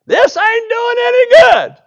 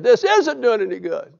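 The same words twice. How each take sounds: First: High, loud, slow frustrated shout in a put-on voice; exasperated yell. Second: Said in the usual way. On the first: Fed-up Naaman shouting at the river in a put-on voice. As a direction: bellow it like a fed-up man getting nowhere. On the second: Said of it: "remembered his English teacher".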